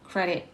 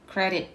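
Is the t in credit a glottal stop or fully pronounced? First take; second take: glottal stop; glottal stop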